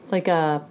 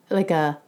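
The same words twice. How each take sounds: The two takes are said the same way.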